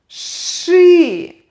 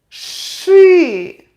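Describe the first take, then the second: Both takes have the same delivery.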